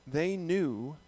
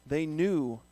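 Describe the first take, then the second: Both takes have the same delivery.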